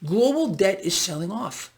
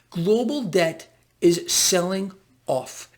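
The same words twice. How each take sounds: First: Said in the usual way. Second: "Global debt is selling off" slowly, with pauses between word groups; slow emphatic repeat. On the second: Real, not acted. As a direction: stretch "selling" and set "off" apart.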